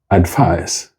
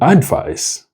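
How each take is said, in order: First: The stress is on the second syllable. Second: The stress is on the first syllable. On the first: The speaker calls it right. "Both of them have their stresses on their second syllables" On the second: The speaker calls it wrong. "So advice is not the correct stress"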